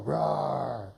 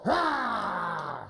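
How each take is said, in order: First: Low, gentle mock growl, half-hearted; lower softer wolf growl. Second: Big playful growling roar; wolf roar. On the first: Coach coaxing shy wolf with a quiet growl. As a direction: murmur a little low rawr. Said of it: "Can you make that voice for me". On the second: Coach asking the wolf actor for a roar. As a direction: roar it out like a hammed-up hungry wolf. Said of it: "Wolf, can you go". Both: Shown as a demonstration.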